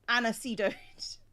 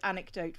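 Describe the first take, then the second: First: The middle consonant is an s sound. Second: The middle consonant is a k sound. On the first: "which he pronounced anisedote" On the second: "the word anecdote"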